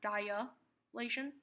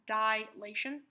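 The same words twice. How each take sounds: First: It has an extra 'a' vowel after 'di'. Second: It has no extra vowel after 'di'. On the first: The speaker calls it wrong. "not dilation. There's no extra A" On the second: The speaker calls it right. "it's pronounced dilation"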